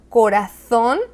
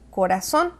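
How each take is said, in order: First: The z sounds like th. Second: The z sounds like s. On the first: This is how it is said in Spain. "O por ejemplo" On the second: This is how it is said in Latin America. "nosotros en Hispanoamérica diríamos"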